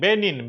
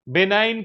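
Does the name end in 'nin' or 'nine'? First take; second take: nin; nine. First: The second syllable sounds like 'nin'. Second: The second syllable sounds like 'nine'. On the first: The speaker calls it right. "बेनिन इसको" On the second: The speaker calls it wrong. "बेनाइन नहीं"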